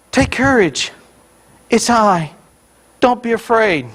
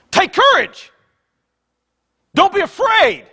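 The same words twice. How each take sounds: First: Mild, measured reading voice, slightly raised; gentle misreading. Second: High, forceful shouted command; emphatic shout. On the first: Preacher showing congregation the usual reading, mild and reassuring. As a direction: read it as a calm reassurance, words set apart. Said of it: "we read it this way". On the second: Preacher showing how Jesus really said it, emphatic shout. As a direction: shout it as an urgent order. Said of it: "It's in the emphatic case". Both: Shown as a demonstration.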